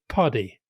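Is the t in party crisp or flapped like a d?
flapped. The t is flapped like a d, American style. This is how it is said in America. "I noticed this in Chicago, you will say puddy"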